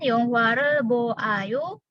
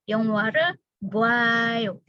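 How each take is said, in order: First: The o and a are said as separate vowels. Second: The o and a merge into one wa sound. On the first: The speaker calls it wrong. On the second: The speaker calls it right. "tapi 영화를 보아요. Langsung jadi buah"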